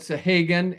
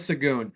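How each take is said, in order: First: The surname ends with a 'gan' sound. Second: The surname ends with a 'goon' sound. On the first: The speaker calls it wrong. "I've said Sahagan" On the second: The speaker calls it right. "So it's Rayana Sagoon"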